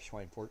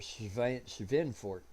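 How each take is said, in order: First: The W is pronounced as an English W. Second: The W is pronounced as a V. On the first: This is how the name looks when read as spelled. "It looks like" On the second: This is the German way to say the name. "because the W is a V sound in German"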